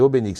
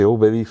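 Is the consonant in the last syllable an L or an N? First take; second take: N; L. First: The last syllable starts with an N sound. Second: The last syllable starts with an L sound. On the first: This is the character's actual name. The speaker calls it right. "c'est Obélix avec un N" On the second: This is the common wrong form of the name. The speaker calls it wrong. "des fois c'est Obélix"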